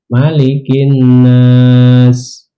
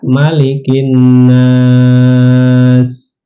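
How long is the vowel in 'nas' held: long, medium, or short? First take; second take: short; medium. First: The vowel in nas is held two beats. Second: The vowel in nas is held four beats. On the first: "misalnya dua harkat" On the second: "Mau empat harkat"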